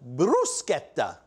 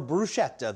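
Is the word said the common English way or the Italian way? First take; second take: Italian; English. First: The word is pronounced the Italian way. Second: The word is pronounced the common English way. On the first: "the way the Italians do" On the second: "the way almost everybody else does"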